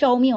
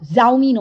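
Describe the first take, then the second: First: The name begins with a 'sh' sound. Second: The name begins with a 'j' sound. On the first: The speaker calls it right. "ওটা শাওমি হবে" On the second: The speaker calls it wrong. "জাউমি নয়"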